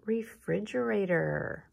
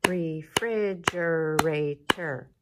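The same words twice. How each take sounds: First: Said in the usual way. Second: "Refrigerator" loud and slow, each syllable its own beat; clapped syllables. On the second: Shown as a demonstration. Teacher slowly claps syllables for the class, loud. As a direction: clap out "Refrigerator" slowly, five loud beats.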